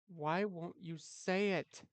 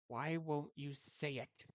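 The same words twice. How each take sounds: First: It is said louder. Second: It is said very softly.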